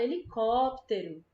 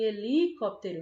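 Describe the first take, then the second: First: The syllable 'có' is stressed and drawn out. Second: The stress falls away from the syllable 'có'. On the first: The speaker calls it right. "A gente fala helicóptero... E có, a gente puxa mais" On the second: The speaker calls it wrong. "nem helicóptero"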